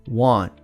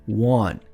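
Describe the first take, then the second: Both takes have the same delivery.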